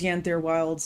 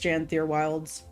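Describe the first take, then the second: First: The name begins with a Y sound. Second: The name begins with a J sound. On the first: The speaker calls it wrong. "I've been saying that wrong. I thought it was" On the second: The speaker calls it right.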